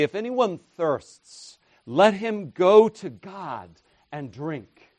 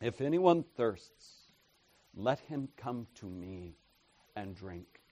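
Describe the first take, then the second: First: Louder and slower, pitched up; David's version, proclaimed. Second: Soft and fading, almost to nothing; Jesus' words, hushed. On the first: Preacher voicing David for contrast, louder and slow. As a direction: declare it like a psalmist. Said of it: "David would say". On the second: Preacher quoting Jesus to the congregation, hushed and fading. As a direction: let the invitation sink to a hush. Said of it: "Jesus does not give you the option". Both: Retold or imitated.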